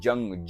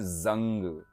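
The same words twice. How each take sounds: First: The word begins with a j sound. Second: The word begins with a z sound. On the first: It means war. "जा में जिस जब नुक्ता नहीं होता" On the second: It means rust. "जा में नुक्ता है"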